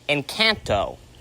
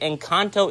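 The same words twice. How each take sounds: First: The word gets an imitated, nonstandard pronunciation. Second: The word gets its standard, usual pronunciation. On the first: The speaker calls it wrong. "as my mom wants to pronounce it, ... that's the wrong way how to say it" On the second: The speaker calls it right. "is the real way to say that word"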